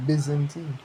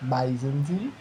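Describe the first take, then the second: First: Byzantine with a short "i" in the first syllable; corrected pronunciation. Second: Byzantine with a long "eye" in the first syllable, drawn out; first pronunciation tried. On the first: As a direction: say Byzantine starting like "biz". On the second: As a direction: say Byzantine slowly as BY-zan-tine. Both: Shown as a demonstration. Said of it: "how you pronounce it?".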